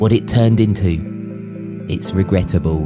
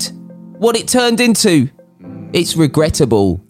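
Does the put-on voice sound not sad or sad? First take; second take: sad; not sad. First: A sad-sounding Middle England voice. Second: A different, not sad-sounding put-on voice. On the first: "I just made him sound like he was a Middle England sad sounding guy" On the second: "I could do it in a different voice if you want"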